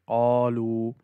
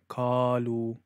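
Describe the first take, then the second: First: It begins with a heavy q from the throat. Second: It begins with a light k sound. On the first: The speaker calls it right. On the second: The speaker calls it wrong.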